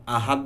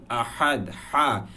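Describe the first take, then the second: First: আহাদ with ordinary light h and "t" end; common wrong reading. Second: আহাদ with হা from deep in the throat; deep haa. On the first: Teacher showing what many say, আহাদ with ordinary h. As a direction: say আহাদ with a plain shallow হা. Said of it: "উচ্চারণটা এমন না". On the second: Teacher correcting many readers, deep হা in আহাদ. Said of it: "খুবই deeply উচ্চারণ হয়". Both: Shown as a demonstration.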